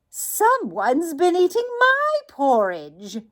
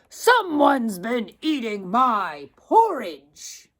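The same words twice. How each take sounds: First: It is said in a medium-sized voice. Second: It is said in a great, deep voice.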